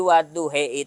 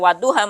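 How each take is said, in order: First: The word ends in an e sound. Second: The word ends in an a sound.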